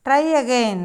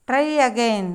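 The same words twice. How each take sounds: The two takes are said the same way.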